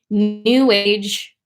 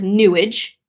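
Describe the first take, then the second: First: It is said as two separate words. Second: It is blended into one word rhyming with sewage.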